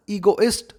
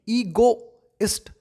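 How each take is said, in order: First: Said in the usual way. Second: ईगोइस्ट said slowly, stretching the long ई at the start; slow pronunciation demo. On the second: Shown as a demonstration. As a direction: spell out ईगोइस्ट sound by sound with a long first ई. (ईगोइस्ट धीरे-धीरे, लंबी ई के साथ) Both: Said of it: "ई, बड़ी ई".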